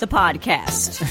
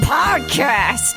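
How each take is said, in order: First: It is said flatly, without excitement. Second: It is said with lively excitement.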